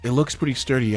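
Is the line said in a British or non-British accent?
non-British. It is said without a British accent.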